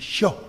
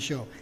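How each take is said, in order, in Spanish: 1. La palabra se dice en voz alta, con mucha fuerza. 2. La palabra se dice suavemente, sin fuerza. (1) "en yo, así, fuerte" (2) "no en yo o en yo"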